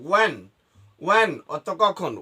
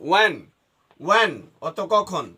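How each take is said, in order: The two takes are said the same way.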